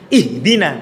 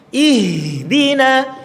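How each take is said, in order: First: The h sound is cut off abruptly. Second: The h sound continues with flowing breath. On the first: The speaker calls it wrong. "ketika sukun ha banyak yang langsung diputus" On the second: The speaker calls it right. "Seharusnya ihdina"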